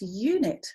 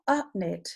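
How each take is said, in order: First: The first vowel is said like 'you'. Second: The first vowel is a short 'uh' sound. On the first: The speaker calls it right. "It can represent its name, like the word unit" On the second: The speaker calls it wrong. "It's not upnit"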